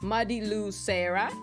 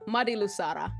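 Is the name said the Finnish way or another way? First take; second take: non-Finnish; Finnish. First: The name is said without Finnish pronunciation. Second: The name is said with Finnish pronunciation. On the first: "But I imagine" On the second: "Very Finnish, in a very Finnish way"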